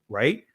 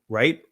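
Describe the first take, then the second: Both takes have the same delivery.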